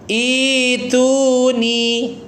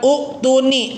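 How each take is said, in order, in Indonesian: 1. Kata ini dimulai dengan vokal i panjang. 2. Kata ini dimulai dengan vokal u pendek. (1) "mat badal asli sehingga bacanya ituni" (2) "bacanya bukan uktuni"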